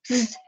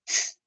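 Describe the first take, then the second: First: The sound is buzzed with the voice. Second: The sound is only air, no voice. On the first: "The voiced just sound like this" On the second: "the unvoiced just sound like"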